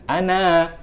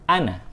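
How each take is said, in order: First: The final vowel is drawn out long. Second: The final vowel is kept short. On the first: The speaker calls it wrong. "bukan ana" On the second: The speaker calls it right. "tapi kita baca ana"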